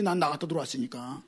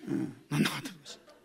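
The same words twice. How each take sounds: First: Said in the usual way. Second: Soft chuckling echo of 난 나갔다 들어왔으니까; laughing aside. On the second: Retold or imitated. Pastor echoes the child's excuse to the congregation, softly laughing. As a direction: repeat it quietly with a laugh.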